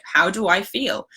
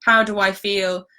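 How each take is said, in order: First: "How do I feel?" slow, with the rise and weight on "I"; stress on I. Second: "How do I feel?" slow, with the weight on "How"; stress on how. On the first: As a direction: lean on "I" in "How do I feel?", asking it slowly. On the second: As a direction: lead with "How" in "How do I feel?", said slowly. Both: Shown as a demonstration. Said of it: "And it's not".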